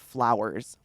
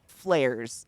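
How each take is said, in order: First: The word is said in a standard accent. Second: The word is said in a Pennsylvania accent.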